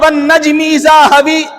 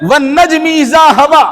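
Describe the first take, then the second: First: The final vowel is tilted toward 'ee'. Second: The final vowel is an open, plain 'a'. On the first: "ये भी एक रिवाज था पढ़ने का, लेकिन ये खाल खाल था" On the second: "खड़ा ज़बर"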